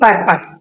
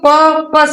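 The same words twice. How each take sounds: First: The r sound is clearly pronounced. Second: The r sound is silent. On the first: The speaker calls it wrong. "ना कि पर्पस" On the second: The speaker calls it right. "इसको पर्पस बोलते हैं"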